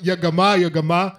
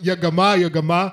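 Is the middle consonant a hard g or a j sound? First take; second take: hard g; hard g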